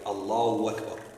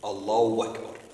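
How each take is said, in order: The two takes are said the same way.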